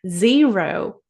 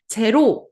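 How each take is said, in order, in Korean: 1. 윙윙거리는 z 소리와 긴 모음이 있습니다. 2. 한국어 소리로 짧게 말했습니다. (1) "생각보다 굉장히 늘어나는 느낌이 나죠?" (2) "제로 아니고요"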